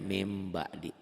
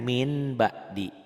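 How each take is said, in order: First: The first word ends with an m sound. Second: The first word ends with an n sound. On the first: This is how it is recited. "Dibacanya mim ba'di" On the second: This is how it is written. "Ditulisnya ada N"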